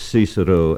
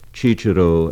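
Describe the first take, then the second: First: The word begins with an s sound. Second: The word begins with a ch sound. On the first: This is the English pronunciation. "not Cicero as in English" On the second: This is the Italian pronunciation. "Cicero as it is in Italian"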